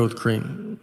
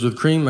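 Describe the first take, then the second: First: "With cream." said low and flat, falling on "cream"; flat confirming. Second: "With cream?" asked with a rising, doubtful tune; a barista's puzzled check, "cream" lifting up; questioning rise. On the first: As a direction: patiently confirm the order, no rise. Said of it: "I go". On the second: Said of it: "She goes". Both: Retold or imitated.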